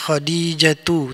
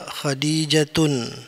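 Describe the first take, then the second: First: The word ends in a plain vowel sound. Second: The word ends with an added 'n' sound. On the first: The speaker calls it right. "Jadi dibaca khadijatu" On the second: The speaker calls it wrong. "tidak boleh dibaca khadijatun"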